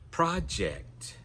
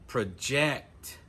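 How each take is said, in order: First: The stress is on the first syllable. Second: The stress is on the last syllable. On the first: It is used as a noun or adjective. "the stress is on the first syllable" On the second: It is used as a verb. "we're going to put the stress on the final syllable"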